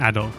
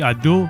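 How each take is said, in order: First: The name ends in an 'oh' sound. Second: The name ends in an 'oo' sound. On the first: The speaker calls it right. "the correct pronunciation, Ado" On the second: The speaker calls it wrong. "I keep saying Adu"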